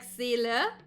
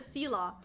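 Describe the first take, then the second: First: The name is pronounced with German vowels. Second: The name is pronounced with English vowels. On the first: The speaker calls it right. "if you pronounce it German, it's like Seele" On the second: The speaker calls it wrong. "they constantly call her Sela"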